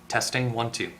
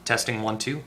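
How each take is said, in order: Both takes have the same delivery.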